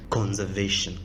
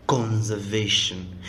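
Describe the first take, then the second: First: Said in the usual way. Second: Conservation drawn out slowly for weight; slow emphatic repeat. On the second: Shown as a demonstration. A preacher repeats "Conservation" slowly to drive it home. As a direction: lean on "Conservation" and stretch each syllable.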